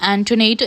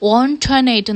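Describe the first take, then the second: First: The name begins with an 'an' sound. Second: The name begins with an 'on' sound. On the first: This is how most people say the name. The speaker calls it wrong. "എല്ലാവരും pronounce ചെയ്തത് ആൻറ്റോനേറ്റ് എന്നായിരുന്നു" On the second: This is how the name ought to be said. The speaker calls it right. "ഓൺടോനേറ്റ് എന്നാണ് pronounce ചെയ്യേണ്ടത്"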